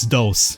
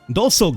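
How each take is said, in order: First: The word has one syllable, ending in s. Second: The word has two syllables, ending in an o. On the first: The speaker calls it right. "I know it's dos" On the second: The speaker calls it wrong. "Doso gauntlets"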